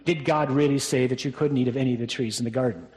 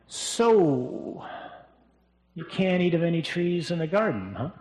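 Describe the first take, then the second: First: Said in the usual way. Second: Fish slyly for a response. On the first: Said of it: "It's not really said that way". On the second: Shown as a demonstration. Serpent fishing for Eve's response, sly and leading. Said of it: "It's really more like".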